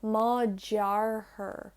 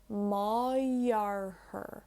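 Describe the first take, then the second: First: Very slow, teeth together for the j in "jarthair"; hard j. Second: Very slow, "ma" gliding into a y in "jarthair"; smooth flow. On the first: Teacher demonstrating the unlenited j, very slow. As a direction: stretch "Ma jarthair", clamped j. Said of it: "bring my teeth together to do the J sound". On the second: Teacher demonstrating the lenited flow, very slow. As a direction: keep the mouth open into "jarthair". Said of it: "It flows from ma into jarthair". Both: Shown as a demonstration.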